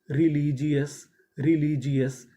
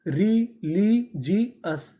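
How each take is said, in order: First: Said in the usual way. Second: Slow, syllable by syllable रिलीजियस; drawn-out model word. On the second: Shown as a demonstration. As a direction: stretch रिलीजियस out for the class. (धीरे धीरे रिलीजियस) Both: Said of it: "तो meaning क्या बनी?".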